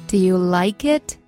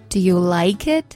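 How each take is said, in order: Both takes have the same delivery.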